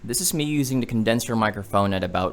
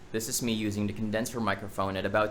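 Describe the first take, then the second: First: The voice is recorded about one foot away. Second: The voice is recorded about two feet away. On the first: "at about one feet away" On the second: "at about two feet away"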